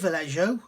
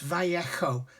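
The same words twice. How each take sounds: First: The J is not pronounced as an H. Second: The J is pronounced as an H. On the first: The speaker calls it wrong. "a lot of people say Vallejo" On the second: The speaker calls it right. "the correct pronunciation ... The J is pronounced as a H"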